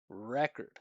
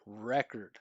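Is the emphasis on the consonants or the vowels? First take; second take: vowels; vowels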